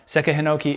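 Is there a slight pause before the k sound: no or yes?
no. The k follows the vowel without a pause. The speaker calls it wrong. "it's not Seka Hinoki"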